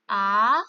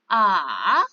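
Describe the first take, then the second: First: The pitch rises from middle to high. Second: The pitch dips low, then rises again. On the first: "Nada dua naik" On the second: "Nada tiga turun, lalu naik"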